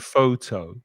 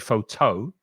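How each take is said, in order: First: The stress is on the first syllable. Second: The stress is on the second syllable. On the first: The speaker calls it right. "say photo" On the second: The speaker calls it wrong. "We don't say photo"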